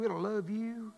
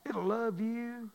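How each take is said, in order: First: Said in the usual way. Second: Slow, tender, drawn-out; slow tender repeat. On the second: Acted. Pastor reassuring the congregation, slow and tender. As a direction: let it sink in gently. Repeated line, second slowed.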